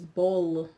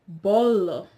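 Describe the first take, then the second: First: The vowels are said with the mouth fairly closed. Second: The vowels are said with the mouth wide open. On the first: "The Europeans will pronounce it as bolo" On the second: "the Brazilians would say bolo"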